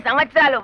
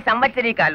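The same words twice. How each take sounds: First: Says సంవత్సరాలు properly, without the extra ీకా; plain correct సంవత్సరాలు after the slip; corrected word for years. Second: Says సంవత్సరీకాలు, the word for death anniversaries, in place of సంవత్సరాలు; wrong word for years. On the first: Husband corrects his age to the census officer with the right word సంవత్సరాలు. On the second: Husband gives census officer his age with the wrong word సంవత్సరీకాలు. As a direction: mispronounce సంవత్సరాలు as సంవత్సరీకాలు, dragging out the extra ీకా. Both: Acted. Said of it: "శ్రాద్ధాలు, పిండాలు ఏమిటయా".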